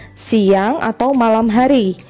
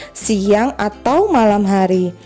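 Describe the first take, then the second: The two takes are said the same way.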